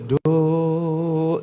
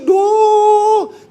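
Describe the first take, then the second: First: The word is said at a low pitch. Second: The word is said at a high pitch. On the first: "Itu oktav rendah" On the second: "Nadanya tinggi"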